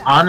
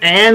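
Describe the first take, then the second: First: The name is said with a Japanese pronunciation. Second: The name is said with an English pronunciation. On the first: "An in Japanese, because An is the Japanese pronunciation" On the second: "It's An in English"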